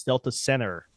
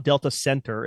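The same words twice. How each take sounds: First: "Delta Center" as "Delta Senner", no T; dropped T. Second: "Delta Center" with a clear T in "Center"; T pronounced. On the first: Correcting to Utah dialect, T left out. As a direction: leave the T out of "Center". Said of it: "C E N N E R". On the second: Showing how it is not said, T sounded. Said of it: "It's not Delta Center". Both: Shown as a demonstration.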